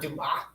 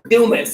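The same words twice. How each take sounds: First: The name is said with French-style pronunciation. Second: The name is said with local English pronunciation. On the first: The speaker calls it wrong. "It's not Dumas. It's not French" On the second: The speaker calls it right. "now it's Dumas"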